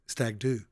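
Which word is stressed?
do. The stress falls on the word do. The speaker calls it wrong.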